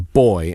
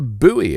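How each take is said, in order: First: The word is said in one syllable, boy. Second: The word is said in two syllables, boo-ee. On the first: This is the British way of saying it. "the British English version is a boy" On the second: This is the American way of saying it. "Americans? Well, they call it a buoy"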